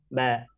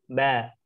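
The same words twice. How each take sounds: No difference in how they are said.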